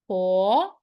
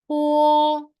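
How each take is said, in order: First: It is said with the second tone. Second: It is said with the first tone. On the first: "Second tone" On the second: "and the first tone"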